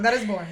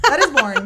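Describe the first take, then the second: First: Laughing. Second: Louder, punched on That; emphatic. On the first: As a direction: laugh through That is boring. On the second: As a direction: declare it boring with force. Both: Shown as a demonstration. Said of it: "How boring".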